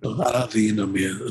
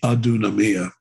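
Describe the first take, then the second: First: The first word has an 'ee' middle vowel. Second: The first word has an 'oo' middle vowel. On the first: It follows the living Greek pronunciation. The speaker calls it right. "delta, delta, softy, the uh, ypsilon" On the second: It follows the scholarly Erasmian pronunciation. The speaker calls it wrong. "in Erasmian would be Aduna Mia"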